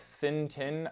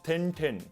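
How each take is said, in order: First: Thin has a soft th; tin has plain t. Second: Thin starts with a hard t; tin sounds retroflex. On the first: "As a speaker of general American English, when I say a phrase like thin tin, I use a dental fricative for thin and then an alveolar plosive for tin" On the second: "So the phrase becomes tin tin"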